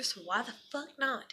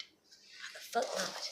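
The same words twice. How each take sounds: First: Said in the usual way. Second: Whisper. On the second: Real, not acted. Repeats line, second whispered.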